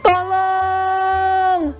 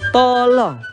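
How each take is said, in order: First: The word is shouted in alarm, like a cry. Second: The word is said calmly, as a polite request. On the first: Someone is calling for help in danger. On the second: Someone is politely asking for something.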